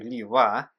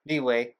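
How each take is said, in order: First: The name ends with a 'wah' sound. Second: The name ends with a 'way' sound. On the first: "and then change to Liwa, trying to say it right" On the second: "say Liyue the wrong way for over a long period of time, like me"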